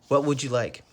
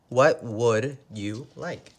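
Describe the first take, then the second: First: It is fast, with 'would you' blended together. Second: It is slow, with 'would you' said separately. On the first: "If we say it fast, we say" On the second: "If we say it slow, we say"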